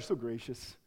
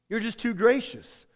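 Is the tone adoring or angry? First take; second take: adoring; angry. First: It sounds warm and adoring, like praise. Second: It sounds angry and yelled, like an accusation.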